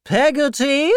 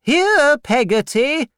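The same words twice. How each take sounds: First: High, rising disbelief at the name; incredulous repeat. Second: Very high, loud call to the servant; shouting to the kitchen. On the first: Aunt Betsy repeats the servant's name, high and incredulous. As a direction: scoff at the odd name. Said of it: "repeated Miss Betsy". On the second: Aunt Betsy yells to the servant in the kitchen, loud and high. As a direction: call her from the next room. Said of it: "Miss Betsy shouted". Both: Acted.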